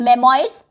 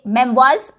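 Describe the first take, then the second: First: The word is said as 'mem-oy-rs'. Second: The word is said as 'mem-wahrs'. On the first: The speaker calls it wrong. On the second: The speaker calls it right.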